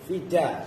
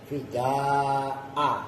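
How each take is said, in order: First: The final vowel is kept short. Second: The final vowel is drawn out long. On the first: "dibaca pendek" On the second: "Kalau mad itu panjang kayak tadi fida'a"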